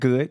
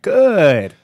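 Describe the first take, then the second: First: The vowel is short and plain. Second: The vowel is drawn out even longer. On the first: Things are fine. "A regular good" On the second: Things are almost very good. "That's when it's almost very good"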